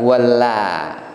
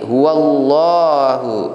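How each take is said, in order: First: The 'la' is light, with a thin vowel. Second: The 'la' is heavy, sounding like 'lo'. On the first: The speaker calls it wrong. "bukan huwalla" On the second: The speaker calls it right. "dibaca lo tebal"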